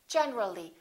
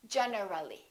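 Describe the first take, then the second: First: That vowel is dropped, leaving fewer syllables. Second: An extra vowel syllable is heard before the ending. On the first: The speaker calls it right. "Generally, not generally" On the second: The speaker calls it wrong. "not generally"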